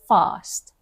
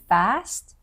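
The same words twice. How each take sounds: First: The vowel is a long, open ah sound. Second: The vowel is a flat, front a sound. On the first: The speaker calls it right. "they say fast. Ah" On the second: The speaker calls it wrong. "They don't say fast"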